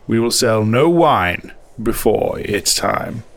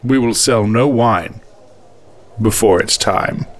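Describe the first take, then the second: First: The words 'no wine' are stressed. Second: No special stress falls on 'no wine'.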